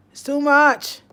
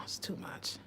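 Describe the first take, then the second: First: It's too much called out loud, falling on much; loud exasperated cry. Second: It's too much barely breathed; overwhelmed whisper. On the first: Speaker to her audience, loudly overwhelmed. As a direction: throw it out, exasperated. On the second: Speaker to her audience, whispering she is overwhelmed. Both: Real, not acted.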